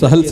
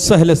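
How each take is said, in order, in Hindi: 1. यह शब्द दो अक्षरों में बोला जाता है। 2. यह शब्द एक अक्षर में बोला जाता है। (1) "सहल सही नहीं है" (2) "लफ्ज सहल सही है"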